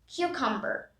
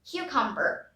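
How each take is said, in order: Both takes have the same delivery.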